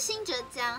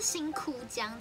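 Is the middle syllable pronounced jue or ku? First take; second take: jue; ku. First: The middle syllable is pronounced jue. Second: The middle syllable is pronounced ku. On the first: The speaker calls it wrong. "不是新爵江" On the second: The speaker calls it right. "它是新窟江"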